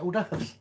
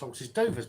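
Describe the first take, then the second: First: It is said the French way, like or-durv. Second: It is read out as spelled, like horses doovers. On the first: It is said the usual way others say it. "everyone calls it hors d'oeuvres" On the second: It is read as it looks on the page. "I see it as horses doovers"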